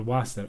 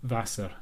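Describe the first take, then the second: First: Wasser begun with an English W; anglicised Wasser, rounded W at the start; W sound in Wasser. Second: Wasser begun with a V sound, as "Vasser"; German-style Wasser, starting like "van". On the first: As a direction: say the W of Wasser as in "water". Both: Shown as a demonstration. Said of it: "do they pronounce W in Germany? Or is it V".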